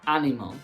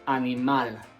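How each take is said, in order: First: The stress is not on the last syllable. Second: The stress is on the last syllable. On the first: The speaker calls it wrong. "we don't say animal" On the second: The speaker calls it right. "The stress falls on the last syllable"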